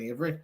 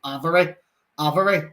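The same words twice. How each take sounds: First: Said in the usual way. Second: "Avery" with a short a, as in "have"; mispronounced name. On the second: Retold or imitated. Hospital staff calling his daughter, "Avery" wrongly said AV-er-ee. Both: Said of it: "Her name's friggin' Avery".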